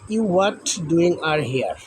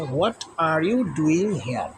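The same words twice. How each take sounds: First: Slow scrambled read. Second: Slow, each word spaced out; slow dictation. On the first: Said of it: "উলটপালট করে দেওয়া রয়েছে". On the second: Teacher reads the unscrambled question to pupils. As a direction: read the fixed question slowly. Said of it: "এটা যদি আমরা সাজাই তাহলে এরকম হয়". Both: Shown as a demonstration.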